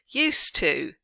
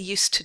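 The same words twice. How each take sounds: First: The word 'to' has a full vowel. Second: The word 'to' has a weak vowel. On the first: The speaker calls it wrong. "don't find yourself drilling used to" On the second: The speaker calls it right.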